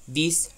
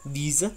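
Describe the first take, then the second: First: The word ends cleanly on its final consonant. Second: A short 'a'-like vowel follows the final consonant. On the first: "la pronunciación internacional es" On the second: "hasta en el número diez que no tiene una letra E al final, ellos dicen"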